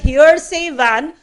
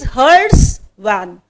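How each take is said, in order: First: The first word has two syllables, like 'hearsay'. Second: The first word has one syllable, like 'hearse'. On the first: The speaker calls it wrong. "people pronounce it as hearsay van" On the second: The speaker calls it right. "It is hearse van"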